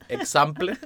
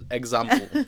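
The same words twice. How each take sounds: First: The first syllable is said with a ks sound. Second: The first syllable is said with a gz sound. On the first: The speaker calls it wrong. "No se dice example" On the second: The speaker calls it right. "sino example"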